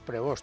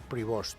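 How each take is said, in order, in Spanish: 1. El nombre termina sin los sonidos finales 'st'. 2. El nombre termina con los sonidos finales 'st'. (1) "Nosotros decíamos Prevost cuando hacíamos quinielas" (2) "en la pronunciación correcta se parece más a Prevost"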